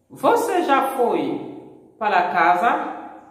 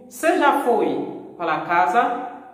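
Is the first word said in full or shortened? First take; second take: full; shortened. First: The first word is the full 'você'. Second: The first word is shortened to 'cê'. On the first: "chaque fois que le brésilien t'a dit você" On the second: "brésiliens yo remplacent você par c'est"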